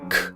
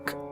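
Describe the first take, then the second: First: The k is released with a puff of air. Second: The k is released without a puff of air. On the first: "with a puff of air" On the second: "but not"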